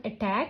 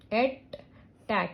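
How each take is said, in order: First: Said in the usual way. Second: "attack" as at, pause, tack; split into syllables. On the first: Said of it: "Next word". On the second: Shown as a demonstration. Teacher showing a two syllable word, split into syllables. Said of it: "this is two syllable word".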